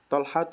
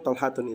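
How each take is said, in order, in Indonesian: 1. Nama itu berakhir dengan vokal tanpa n di akhir. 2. Nama itu berakhir dengan bunyi n tambahan di akhir. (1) "itu betul" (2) "itu salah"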